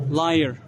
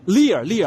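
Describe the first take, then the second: First: "Liar" said as LIE-er; mistaken pronunciation. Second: "Lear" said as LEE-er, twice; corrected pronunciation. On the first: Vlogger misreading a company name, "Liar" as LIE-er. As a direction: say "Liar" with a long eye vowel. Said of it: "Liar is not a good". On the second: Vlogger fixing a company name, "Lear" as LEE-er. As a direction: say "Lear" with a long ee. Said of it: "the pronunciation is Lear". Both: Shown as a demonstration.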